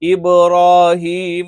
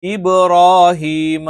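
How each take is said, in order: No difference in how they are said.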